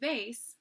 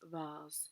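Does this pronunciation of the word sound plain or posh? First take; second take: plain; posh. First: The word has an ordinary, everyday pronunciation. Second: The word has a posh, aloof-sounding pronunciation.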